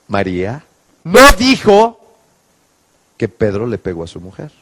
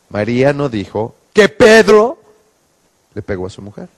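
First: The stress is on no dijo. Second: The stress is on Pedro.

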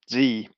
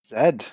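First: The letter is said the American way, zee. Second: The letter is said the British way, zed.

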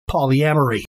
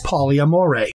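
First: The word ends with an 'ee' sound. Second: The word ends with an 'ay' sound. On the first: "the typical pronunciation is simply" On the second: "some people pronounce the word polyamory as"

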